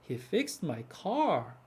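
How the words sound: The pitch rises and falls in a rhythm. The speaker calls it right. "올라가고 내려가고 올라가고 내려가고"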